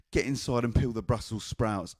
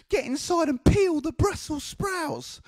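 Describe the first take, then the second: First: Said in the usual way. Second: Very high, slow grandma screech. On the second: Retold or imitated. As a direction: order the child about in a drawn-out high voice. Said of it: "She sounded like this".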